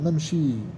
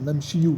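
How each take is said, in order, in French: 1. Le mot se termine sur le 'i', sans voyelle après. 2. Le mot se termine par une voyelle finale 'u' ajoutée. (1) "il faut dire Namchi" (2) "On n'a pas le dire Namchiou"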